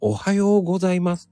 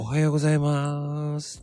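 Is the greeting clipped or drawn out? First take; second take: clipped; drawn out. First: The greeting is said short and clipped. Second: The greeting is relaxed and slightly drawn out.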